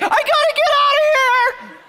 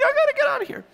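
First: Very high, loud mock-panic squeal; hammed-up frantic falsetto; panicked sleepwalker. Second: Small panicked squeak. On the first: Sleepwalking wife at the door, imitated shrieking panic. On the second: Retold or imitated. Sleepwalking wife at night, imitated tiny falsetto panic. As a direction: squeak out a mock escape plea.

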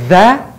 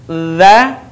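First: 'dha' with air hissing out along the consonant; dha with airflow. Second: 'Dha' with a voiced tongue-tip buzz and no escaping air; dha, air held. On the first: Teacher showing what is not allowed, airy 'dha'. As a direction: leak breath through the start of 'dha'. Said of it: "Tidak boleh dha dengan mengalir udara". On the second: Teacher correcting, 'Dha' with held-back air. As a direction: hold the breath back on 'Dha'. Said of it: "Tahan udaranya". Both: Shown as a demonstration.

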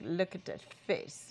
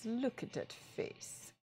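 First: Said in the usual way. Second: Slow, soft whisper. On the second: Shown as a demonstration. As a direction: breathe it out slowly. Repeated face, whispered.

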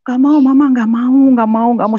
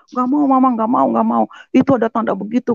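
First: Put-on higher and louder child's wail; louder imitated child refusal; child protesting, tugging. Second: Put-on higher whiny child voice, lightly done; mild mock of a child's protest; imitating a scared child. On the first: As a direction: cry out like a kid pulling Mama back. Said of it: "sambil ditarik-tarik". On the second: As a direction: play the little child refusing.

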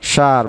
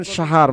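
First: সার said short and quick, no stretch; সার in one short syllable; short clipped vowel. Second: সাহার said long, vowel stretched with an h between; সাহার with a long, breathy middle; drawn-out vowel. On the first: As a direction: keep সার brief to mean hair. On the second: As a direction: stretch out সাহার slowly for month. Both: Shown as a demonstration. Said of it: "যখন একটু দীর্ঘ উচ্চারণ করবেন".

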